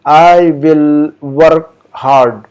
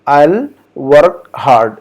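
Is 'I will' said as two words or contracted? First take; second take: two words; contracted. First: I and will are said as two full words. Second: I and will are merged into one syllable. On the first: "हम कहेंगे" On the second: "दोनों को मिलाकर"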